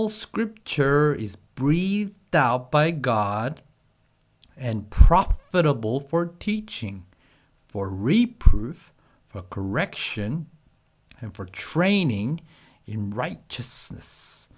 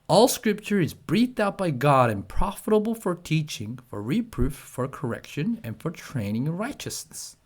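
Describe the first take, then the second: First: It is read at a slow pace. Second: It is read at the fastest pace.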